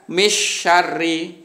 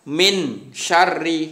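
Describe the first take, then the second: First: The n sound is left out entirely. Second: The n sound is pronounced fully clear. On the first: "Atau dibaca misyarri, gitu juga tidak boleh" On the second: "Tidak boleh dibaca min syarri"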